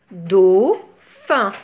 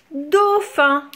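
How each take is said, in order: First: "Dauphin" as a long dau, pause, phin; split into syllables. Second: Said in the usual way. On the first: Shown as a demonstration. Teacher counting two syllables for children, "Dauphin" split apart. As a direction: break "Dauphin" into two separate beats. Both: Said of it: "Deux syllabes".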